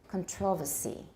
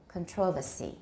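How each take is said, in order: No difference in how they are said.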